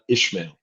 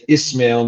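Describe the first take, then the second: First: The first syllable has an 'sh' sound. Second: The first syllable has an 's' sound. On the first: The speaker calls it wrong. "not Ishmael" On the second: The speaker calls it right. "I still challenge myself to say Ismail"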